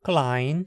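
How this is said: The vowel is an ai diphthong. This is the Standard German form. "depois em alemão padrão"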